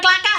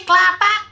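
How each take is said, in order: First: Kelaka said with no t, klaka; the mistaken Kelaka, ending in a plain ka; wrong name Kelaka. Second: Kelatak said kla-tak with a clear t before the last syllable; Kelatak, hitting the t in the middle; right name Kelatak. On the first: Correcting the village name to viewers, the wrong Kelaka. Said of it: "Bukan Kelaka". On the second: Correcting the village name to viewers, careful Kelatak. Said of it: "sorry, Kelatak". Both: Shown as a demonstration.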